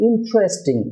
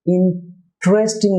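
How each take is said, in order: First: ইন্টারেস্টিং joined up as "IN-chres-ting"; higher ইন্টারেস্টিং, stress first, TR said as CHR. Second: ইন্টারেস্টিং split as "in, tresting" with a plain TR; slow ইন্টারেস্টিং, pausing after "in". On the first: Teacher models the corrected word for viewers, TR as CHR. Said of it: "চ র হয়ে থাকে". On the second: Teacher shows viewers the form to avoid, plain TR after a gap. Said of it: "না হয়ে হবে". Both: Shown as a demonstration.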